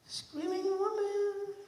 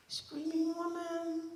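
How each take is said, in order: First: High, slow, distant wail; high drawn ghostly echo; distant eerie call. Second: High, slow, soft wail; soft high ghostly call; soft eerie call. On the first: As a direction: let it drift from far away. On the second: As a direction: float it like a ghost voice. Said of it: "narration, eerie". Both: Acted.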